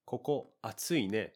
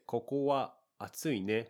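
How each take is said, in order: First: "Koko" then a short pause, then "atsui ne"; slow, leaving a gap after "koko". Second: Stiff, overly correct phrasing; robotic. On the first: Teacher shows the natural version, pausing after "koko". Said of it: "I am pausing a little bit after the koko". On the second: Teacher shows the stiff version with wa, robotic. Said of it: "that sounds a little robotic". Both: Shown as a demonstration.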